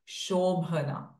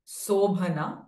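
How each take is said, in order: First: The word begins with a sh sound. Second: The word begins with a plain s sound. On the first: The speaker calls it right. "but it is Shobhana" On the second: The speaker calls it wrong. "it is not Sobhana"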